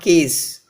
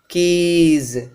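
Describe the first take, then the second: First: The plural ending is a voiceless s sound. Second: The plural ending is a voiced z sound. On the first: The speaker calls it wrong. "not keys" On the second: The speaker calls it right.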